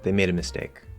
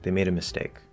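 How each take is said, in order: No difference in how they are said.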